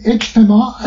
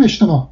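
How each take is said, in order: First: اجتماع spelt out in sound, ending on a glottal stop; as written. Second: اجتماع as eshtema, silent final ain; as read aloud. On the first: Linguist showing the written form, pronounced as spelt. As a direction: sound the final ain of اجتماع. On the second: Linguist showing how it is read, jim as sh. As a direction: say sh for the j in اجتماع, open ending. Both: Shown as a demonstration.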